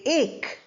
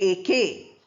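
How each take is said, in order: First: The word ends on the k sound. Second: A vowel is sounded after the k. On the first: The speaker calls it right. "We say ache" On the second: The speaker calls it wrong. "We don't say A K"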